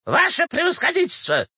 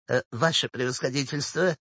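First: Very high, wailing appeal; distraught old woman. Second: Soft, sweet little smile in the voice; coy, softened wheedling; coquettish. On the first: Old woman rushes to the official, distraught. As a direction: cry out for help to a superior. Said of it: "бросилась Кистунову Щукина". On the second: Old woman sweetly approaches the official, coquettish. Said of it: "даже кокетливую улыбочку, спросила". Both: A narrator's reading.

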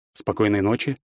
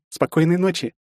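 First: Said in the usual way. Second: Put-on high, gentle girlish goodnight; sweet sister saying goodnight; girl's goodnight. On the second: A narrator's reading. Olga says goodnight.

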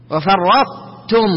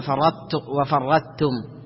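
First: Slow "وفرطتم", heavy ط held without bounce into ت; heavy ط kept. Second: Soft "وفرطتم" with the ط losing its proper held heaviness; mistaken ط reading. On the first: Teacher models correct recitation, ط heavy but merged into ت. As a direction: keep وفرطتم full-mouthed on ط, release only ت. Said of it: "مفخم أو مستعلي". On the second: Teacher shows students the mistake, ط not kept properly heavy. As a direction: say وفرطتم softly, the wrong way on ط. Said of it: "ما تقول". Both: Shown as a demonstration.

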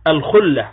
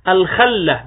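First: الخلة said with a short u, "khulla"; damma on the kha. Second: الخلة said with a short a, "khalla"; fatha on the kha. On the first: Lecturer asks what the term means, الخلة with damma. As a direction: say الخلة as "al-KHUL-la", u after the kha. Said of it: "وليس بضمها". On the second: Lecturer quotes opponents' reading, الخلة with fatha. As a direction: say الخلة as "al-KHAL-la", a after the kha, not u. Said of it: "بفتح الخاء". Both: Shown as a demonstration.

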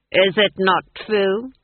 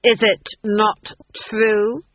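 First: "Is it not true?" asked slowly with a rising end; the Duke demanding Granny admit it, pressing; pressing question. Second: "is it not true?" louder and higher, hammering each word; insistent repeat. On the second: The Duke repeating his demand to Granny, louder and insistent. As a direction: demand the answer a second time, louder. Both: Acted. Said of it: "I said".

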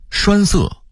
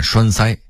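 First: Said in the usual way. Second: 栓塞 as shuānsāi; Beijing reading. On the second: Shown as a demonstration. Narrator contrasting word lists, Beijing reading. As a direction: say 塞 in 栓塞 as sāi, not sè. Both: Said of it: "北京话念栓塞".

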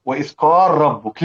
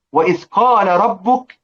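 First: قال ربك with the lam merged into a doubled r; assimilated lam. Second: Said in the usual way. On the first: Shown as a demonstration. Teacher demonstrates al-Susi's merging, assimilated "qar-rabbuk". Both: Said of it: "نجد أن السوسي يدغمها".

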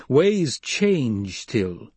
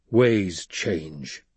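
First: Very slow, drawn-out pronouncement; Paul's pronouncement. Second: Lower, measured echo; Stilgar conceding. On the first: Paul pressing the silent Stilgar, slow pronouncement. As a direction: stretch each word out weightily. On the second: Stilgar echoing Paul as he gives way, conceding. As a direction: concede it in a low register. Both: A narrator's reading.

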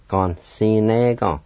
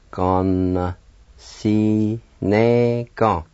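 First: Said in the usual way. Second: "Gon, si, ne, gon" slowly, each syllable held; slow teaching take of "Gon, si, ne, gon"; slow pronunciation. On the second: Shown as a demonstration. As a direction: draw out Gon, si, ne, gon evenly. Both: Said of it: "Like this".

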